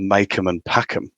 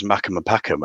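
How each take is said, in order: First: "Mackem and Packham" with MACK said like "make"; long "ay" in the first word of "Mackem and Packham"; original pronunciation. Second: Geordie "Mackem and Packham", short "a" in both words; Geordie accent. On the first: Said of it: "So then in the Geordie accent". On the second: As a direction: say "Mackem and Packham" Geordie-style, MACK rhyming with "back". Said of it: "in the Geordie accent". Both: Shown as a demonstration.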